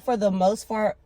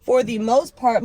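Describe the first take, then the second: First: "part" slipped so it starts like "fart"; tongue slip. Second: "part" redone with a firm, clear P; corrected retake. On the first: Vlogger tripping over her words about her platform, tongue slip. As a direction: stumble on "part", starting it with an F sound. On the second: Vlogger fixing her stumble about her platform, corrected retake. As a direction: restart firmly, popping the P of "part". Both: Real, not acted. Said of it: "my God".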